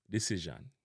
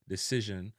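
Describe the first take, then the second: First: DECISION ending in a full "zhan"; Jamaican pronunciation. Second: DECISION ending in a weak "zhun"; English-style "de-ci-zhun"; English pronunciation. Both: Shown as a demonstration. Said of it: "replaced with a an sound".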